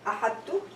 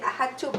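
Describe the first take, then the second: First: The t sound is heavy and emphatic. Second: The t sound is plain and light. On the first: The speaker calls it right. "the ta would be pronounced with adbaq" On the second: The speaker calls it wrong. "we are not going to say ahadtu"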